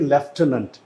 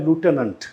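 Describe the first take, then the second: First: It begins with 'lef' and has an 'f' sound. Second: It begins with 'loo' and has no 'f' sound. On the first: "जो British होंगे वो बोलेंगे लेफ्टिनेंट" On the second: "American जो होते हैं वो इसे बोलते हैं लूटेनेंट"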